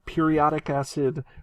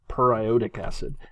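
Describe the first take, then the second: First: Said like the everyday word periodic. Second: Said as per plus iodic, split apart. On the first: The speaker calls it wrong. "it looks like periodic acid" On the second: The speaker calls it right. "I would much prefer to hear um, per-iodic acid"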